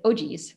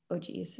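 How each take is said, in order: First: Said in the usual way. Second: "Oh, geez" said much softer, almost under the breath; muttered second take of "Oh, geez"; quiet retake. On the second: Retold or imitated. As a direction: drop the volume way down on "Oh, geez". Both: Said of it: "say this, say this".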